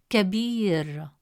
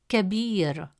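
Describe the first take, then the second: No difference in how they are said.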